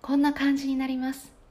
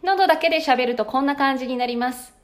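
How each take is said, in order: First: The throat voice is even thinner and frailer. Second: The voice comes only from the throat.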